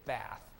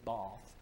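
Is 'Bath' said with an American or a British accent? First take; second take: American; British. First: It is said with an American accent. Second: It is said with a British accent. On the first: This marks the speaker as a foreigner. The speaker calls it wrong. "they know you're an American if you say Bath" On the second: This is how the locals say it. The speaker calls it right. "That's how they always pronounce it"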